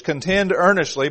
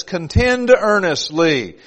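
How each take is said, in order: First: Said in the usual way. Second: "Contend earnestly" slow, each word weighted, CONTEND leaned on; key phrase stressed. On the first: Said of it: "There's two words in English". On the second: Shown as a demonstration. Preacher stresses the key phrase to his congregation, slow and weighty. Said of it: "the key phrase".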